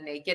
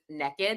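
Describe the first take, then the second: First: It is said with a standard American accent. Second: It is said with a Southern American accent. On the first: This is the usual way to say it. "instead of naked" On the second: This is how the speaker's mother says it. "my mom is from the South too, so she also says naked"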